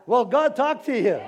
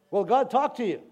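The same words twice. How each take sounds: First: Louder, higher call to the crowd; raised, rousing question. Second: Said in the usual way. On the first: Real, not acted. Preacher presses the congregation again, loud and rousing.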